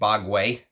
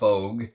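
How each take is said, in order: First: The name ends with a final 'way' sound. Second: The name ends without a final 'way' sound. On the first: The speaker calls it right. "It's actually Bogway" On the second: The speaker calls it wrong. "It's not Bogue"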